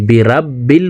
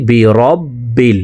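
First: বিরাব্বিল with an open a sound; common mistake. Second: বিরব্বিল with rounded o and doubled b, slow; correct reading. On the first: Teacher naming the common wrong pronunciation. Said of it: "maximum মানুষই ভুল করে থাকি". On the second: Teacher giving the correct form slowly. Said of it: "পড়তে হবে বিরব্বিল". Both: Shown as a demonstration.

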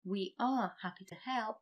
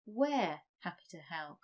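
First: "We are" said as two clear words; full form. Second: "we're" run together as one syllable; contracted form. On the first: Teacher reads the uncontracted version first. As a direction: keep "We are" separate and unshortened. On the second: Teacher gives the shortened spoken form. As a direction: blend "we're happy to help" into the contraction. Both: Shown as a demonstration.

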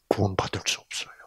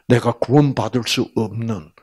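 First: Whispered. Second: Said in the usual way. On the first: Real, not acted. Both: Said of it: "repeated phrase".

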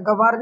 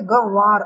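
First: गवार said quickly in one piece; wrong form. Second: गवार slowly as "gan - vaar"; correct form. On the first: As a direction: say गवार run together, as the mistaken form. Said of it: "गवार नहीं गवार". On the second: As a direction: split गवार into two drawn-out syllables with a nasal first one. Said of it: "गवार होता है". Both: Shown as a demonstration.

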